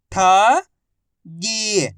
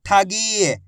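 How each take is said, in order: First: ठगी split as ठ, long pause, गी; syllable by syllable. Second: ठगी joined, ending on held गी; blended word. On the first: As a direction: sound out ठगी slowly, ठ rising, गी falling. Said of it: "एक अक्षर की पहचान करो, उनका उच्चारण करो". (ठगी को अक्षर-अक्षर अलग बोलें) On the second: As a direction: blend ठ and गी into ठगी without a gap. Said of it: "आपस में मिला के पढ़ दो". (ठगी को मिलाकर बोलें) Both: Shown as a demonstration.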